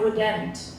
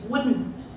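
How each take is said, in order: First: A vowel sound is heard between N and T. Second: No vowel sound is heard between N and T. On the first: The speaker calls it wrong. "It's not wouldn't" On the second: The speaker calls it right. "There's no uh, vowel quality between the, the N and the T"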